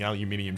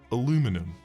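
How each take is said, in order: First: It is said the British way, five syllables. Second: It is said the American way, four syllables. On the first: The speaker calls it right. "It's because it's written wrong in there!" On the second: The speaker calls it wrong. "You got me, Americans! Well done! I said it!"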